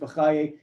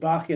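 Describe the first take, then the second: First: The stress is on the last syllable. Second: The stress is on the first syllable. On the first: It names the later scholar. "this one's Bachaye" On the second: It names the earlier scholar. "the earlier one goes Bachya"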